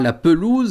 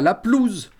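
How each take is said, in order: First: The e in the first syllable is pronounced. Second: The e in the first syllable is dropped. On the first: The speaker calls it right. "On évitera à tout prix le E muet. On dira" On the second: The speaker calls it wrong. "et pas"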